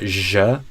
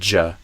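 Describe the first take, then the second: First: It is a continuous buzzing 'zh' sound. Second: It is a stop followed by a burst, 'dj'. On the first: The speaker calls it wrong. "Not J, ... not just a continuous J" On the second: The speaker calls it right. "but J. So there's a stop and an explosion"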